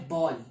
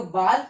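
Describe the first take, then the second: First: बॉल with a rounded "aw" vowel, English style; English ball. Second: बाल with an open "ah" vowel, German style; German Ball. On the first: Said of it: "And English में क्या कहते हैं?". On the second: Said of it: "German में बाल कहते हैं". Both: Shown as a demonstration.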